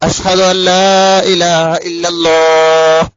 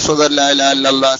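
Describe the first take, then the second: First: It is said in a loud, full voice. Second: It is said in a low, quiet voice. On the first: "ഉറക്കെ" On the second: "പതുക്കെ"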